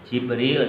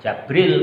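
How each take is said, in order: First: The first syllable has an 'i' vowel. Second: The first syllable has an 'a' vowel. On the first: "Jibril itu dibaca kasroh jimnya" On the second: "Jabril kalau dibaca ja ya itu tanpa ya"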